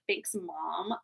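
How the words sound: It is said in a mean, sarcastic tone.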